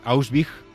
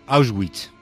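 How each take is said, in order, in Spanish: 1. La W se pronuncia como una B. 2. La W no se pronuncia como una B. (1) "en alemán la W suena B, como Bert, y la che final como una G suave, así que es Auschwitz" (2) "y no Auschwitz"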